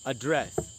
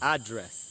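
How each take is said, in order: First: The word is said in a British accent. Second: The word is said in an American accent. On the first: "British English में इसको बोलेंगे एड्रेस" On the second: "American English में इसको बोलना चाहिए एड्रेस"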